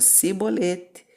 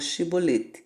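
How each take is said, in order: First: The word begins with an 's' sound. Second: The word begins with an 'sh' sound. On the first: The speaker is from the tribe of Ephraim. The speaker calls it wrong. "Se o pobre homem dissesse" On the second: The speaker is not from the tribe of Ephraim. The speaker calls it right. "diga, eu quero atravessar o Shibolete"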